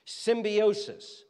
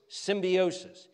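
First: "Symbiosis" drawn out slowly, stretching the final s; slow, drawn-out word. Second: Said in the usual way. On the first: Shown as a demonstration. Preacher teaching the congregation a word, slow and drawn out. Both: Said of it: "teaching word example".

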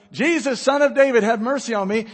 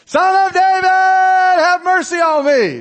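First: Raised, calling voice, higher and louder; crying out to Jesus. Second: Full shout, much higher and louder, dragged out slowly; louder desperate cry. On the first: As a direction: call out to be heard over the crowd. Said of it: "He cried out all the more". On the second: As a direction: scream it over everyone, desperate. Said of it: "he got louder". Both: Acted.

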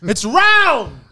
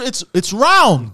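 First: Loud, high round, hammered home; exasperated. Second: Slow, stretched-out round, said in disbelief; exasperated. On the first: Insisting to his friend that a burger is round, loud and high. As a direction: say it again, higher, insisting. Repeating the point. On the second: Explaining to his friend that burgers are round, slow and exasperated. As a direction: lean on round, slow and fed up. Stressing the obvious. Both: Real, not acted.

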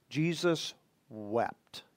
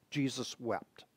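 First: Slow and much softer, lower; hushed reading. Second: Much lower and far softer, fading echo; near-whispered repeat. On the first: Preacher reading the shortest verse to his congregation, hushed and slow. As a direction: let the verse drop to a hush. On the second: Preacher echoing the verse for his congregation, near whisper. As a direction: repeat it barely above a breath. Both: Shown as a demonstration.

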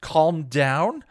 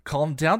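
First: High, loud outraged echo. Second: High, loud outraged echo again. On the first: Buffy fires back at Xander, outraged. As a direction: throw his words back at him. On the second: Buffy repeats it to Xander, outraged. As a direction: hurl it back a second time. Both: A narrator's reading.

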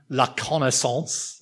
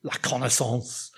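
First: "la connaissance" said slowly, in a modest French accent; slow, careful French "la connaissance"; French pronunciation. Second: "La connaissance" repeated much softer, lingering on it in French; soft, savoured French "La connaissance"; savouring the word. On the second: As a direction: relish "La connaissance", hushed and fond. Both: Shown as a demonstration. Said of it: "Isn't that a lovely word?".

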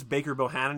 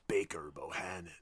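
First: Said in the usual way. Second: Low, soft, menacing name-drop; imitating a quiet sneer at a rival firm; stank on it. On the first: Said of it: "he says it the same way". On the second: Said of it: "like, a stank on it".

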